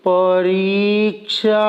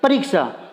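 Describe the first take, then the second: First: It is said very slowly, drawn out. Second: It is said at normal speed.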